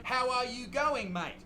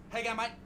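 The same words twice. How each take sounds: First: "How are you going, mate" with every word separate; laboriously full "How are you going, mate"; overdone slang. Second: "How you going, mate" slurred into one short word; squashed Aussie "How you going, mate"; nice and quick. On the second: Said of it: "Nice and quick". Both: Shown as a demonstration.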